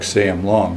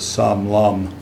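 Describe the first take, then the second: First: The name ends with an 'ng' sound. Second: The name ends with an 'm' sound. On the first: This is how the name reads from its spelling. "spelled just like Sam Long" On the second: This is how native speakers say the name. "you pronounce it Sam Lum. That's the way the Vietnamese pronounce it"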